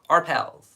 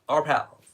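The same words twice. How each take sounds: First: It is said in an American accent. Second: It is said in an American accent.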